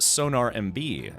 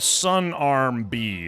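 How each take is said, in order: First: It is split as sonar, M, B. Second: It is split as sun, arm, B. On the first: The handle is read as intended. The speaker calls it right. "people will know it's Sonar M B" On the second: The handle is misread because it lacks capitals. The speaker calls it wrong. "I'm like so, Sun Arm B"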